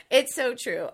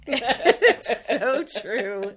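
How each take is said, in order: First: Said in the usual way. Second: Slow, loud words through laughter; laughing agreement. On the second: Real, not acted. Co-host agreeing about free design software, laughing. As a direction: agree while still cracking up.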